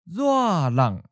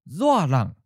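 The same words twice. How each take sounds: First: It is said slowly and carefully. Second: It is said at a natural speed. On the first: "and then slowly" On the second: "First natural speed"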